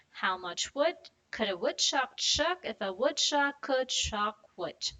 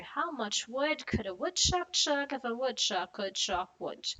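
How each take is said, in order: First: Slow and careful, every W clear; slow tongue twister. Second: Brisk run, words linked; faster tongue twister. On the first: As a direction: go slow, sound by sound. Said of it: "let's do it slowly". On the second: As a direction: pick up the pace. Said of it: "a little bit faster". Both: Shown as a demonstration.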